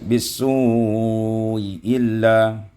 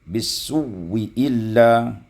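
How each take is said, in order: First: The first hamza is softened, with no w sound. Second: The first hamza becomes a doubled w sound. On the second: "wawin biwawin musyaddadatin maksuratin"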